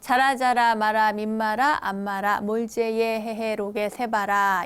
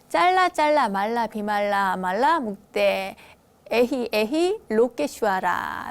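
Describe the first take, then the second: First: It uses the traditional Korean reading of the syllables. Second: It uses the original Sanskrit sounds of the syllables.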